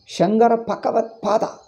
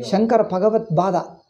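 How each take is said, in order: First: The voiced B and G become P and K. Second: The P in the last word becomes B. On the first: "Mari Pa Ba, if you mix up, how do you understand?" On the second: "Mari Pa Ba, if you mix up, how do you understand?"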